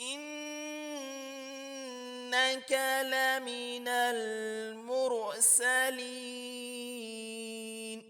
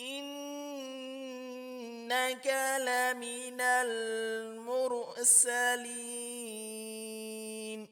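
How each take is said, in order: No difference in how they are said.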